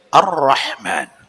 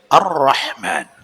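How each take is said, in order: First: The l merges into a doubled r sound. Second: The same.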